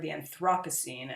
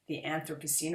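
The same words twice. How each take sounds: First: The word is said in a British way. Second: The word is said in a non-British way.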